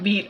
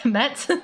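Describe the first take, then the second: First: The vowel is long, as in 'meet'. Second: The vowel is short, as in 'bed'. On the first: The speaker calls it right. "meat is pronounced like meat" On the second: The speaker calls it wrong. "Did I say met?"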